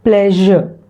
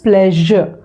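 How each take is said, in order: The two takes are said the same way.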